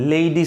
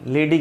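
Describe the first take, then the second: First: The word has the standard English vowel. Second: The word has a commonly heard nonstandard vowel. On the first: The speaker calls it right. "लेडी सही है" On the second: The speaker calls it wrong. "लेडी गलत है"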